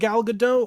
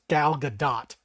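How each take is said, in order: First: The final T of the surname is silent. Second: The final T of the surname is pronounced. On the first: The speaker calls it wrong. "or sorry" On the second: The speaker calls it right. "you actually have to pronounce the T"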